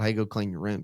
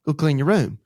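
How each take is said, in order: First: Said in the usual way. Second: Louder and higher, a firm dad order; stern command. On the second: Retold or imitated. Dad repeating the order to his daughter, louder and higher. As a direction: bark it at the five-year-old, then repeat it firmer. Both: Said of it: "and I'm going".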